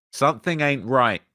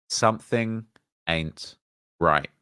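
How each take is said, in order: First: Said in the usual way. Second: "Something... ain't... right", a pause after each word; word-by-word emphasis. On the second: Shown as a demonstration. Host repeating his doubt about the post, slow, deliberate, word by word.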